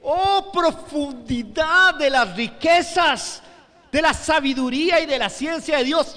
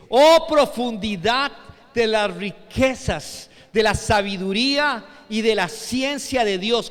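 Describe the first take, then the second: First: High, loud, slowly stretched cry of wonder; contemplative exclamation. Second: Loud, drawn-out opening exclamation; exclamation of wonder. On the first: Preacher showing how Pablo exclaimed it, contemplative wonder. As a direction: marvel aloud, stretching every phrase. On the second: Preacher reading the apostle Pablo to the congregation, exclaiming in wonder. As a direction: recite it in solemn awe. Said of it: "En signos de admiración". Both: Retold or imitated.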